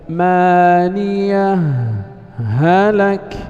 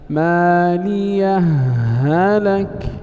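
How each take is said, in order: First: A brief silent pause follows the first word's h. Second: The words merge with one doubled h sound. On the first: "وجه السكت، الإظهار ولا يتأتى إلا بالسكت، وهو المقدم المختار في الأداء، هكذا" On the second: "وجه الإضغام، أن ننطق بهاء واحدة مشددة هكذا"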